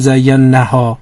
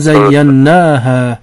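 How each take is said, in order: First: The vowel after the n is short. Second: The vowel after the n is drawn out. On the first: The speaker calls it wrong. "نمیگیم زینها" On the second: The speaker calls it right. "حرف نون رو صداش کشیده میکنه"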